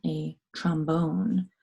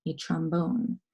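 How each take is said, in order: First: Trombone stretched out slowly; drawn-out trombone; slow careful word. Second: Said in the usual way. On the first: Shown as a demonstration. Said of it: "the last word is a musical instrument".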